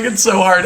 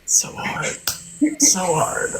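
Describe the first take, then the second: First: High, whiny fake-tearful; hammed-up crying voice; mock sad. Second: Breathy whispered fake grief; softly hammed-up heartbreak; mock sad whisper. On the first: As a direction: play up the sorrow for show. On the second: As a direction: whisper it as if overcome, but faking. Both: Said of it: "I'm like".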